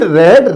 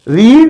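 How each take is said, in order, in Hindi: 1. स्वर छोटा है, 'red' जैसा। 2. स्वर लंबा है, 'reed' जैसा। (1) "रेड होती है" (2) "सेम स्पेलिंग होती है, लेकिन उनका प्रोनाउंसिएशन अलग अलग होता है।"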